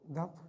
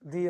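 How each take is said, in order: First: The vowel is a short 'uh' sound. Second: The vowel is a long 'ee' sound. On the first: "अगर consonant है तो दा बोला जाएगा" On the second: "ओवेल से होगा तो दी"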